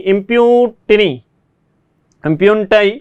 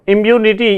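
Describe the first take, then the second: First: "impunity" stretched out, every syllable slow and clear; slow, drawn out. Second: Said in the usual way. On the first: Shown as a demonstration. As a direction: say "impunity" slowly, as if for dictation. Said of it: "teacher repeats the word slowly". ("impunity" को धीरे-धीरे, हर अक्षर खींचकर बोलिए) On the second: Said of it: "teacher repeats the word".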